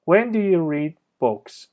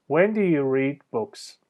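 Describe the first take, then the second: First: "When" high, voice falls to "books"; falling question tune. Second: "When do you read books?" said slowly, falling on "books"; slow it down and let each word fall; slow falling question. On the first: Teacher showing falling intonation on a wh-question. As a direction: start high on "When", drop at the end. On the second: Teacher repeating slowly for students, falling tune. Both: Shown as a demonstration. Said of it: "تون صدا میاد پایین".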